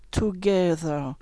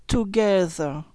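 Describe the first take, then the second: First: Together with a soft tongue th, quieter; tongue between teeth for together. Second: Together with a soft tongue th. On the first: (together, th doux) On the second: (together, th doux entre les dents) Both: Shown as a demonstration. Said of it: "faites le son the".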